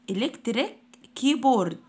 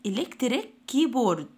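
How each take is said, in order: Both takes have the same delivery.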